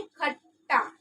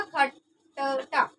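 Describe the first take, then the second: First: खट्टा with a doubled ट, khatta; खट्टा, the correct joined sound; right reading. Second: खट्टा drawn out very slowly, kha-ta-ta; खट्टा, slow unjoined demo; wrong reading. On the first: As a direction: say खट्टा with a held ट्ट. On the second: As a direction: stretch खट्टा into separate syllables. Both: Shown as a demonstration. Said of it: "लेकिन हमें क्या उच्चारण करना है?".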